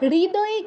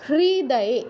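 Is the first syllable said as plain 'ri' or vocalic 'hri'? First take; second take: plain ri; vocalic hri. First: The first syllable is said with a plain 'ri'. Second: The first syllable is said with a vocalic 'hri'. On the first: The speaker calls it wrong. "হৃদয়ে কেউ বলবো না" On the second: The speaker calls it right. "তাহলে উচ্চারণটা কি হবে?"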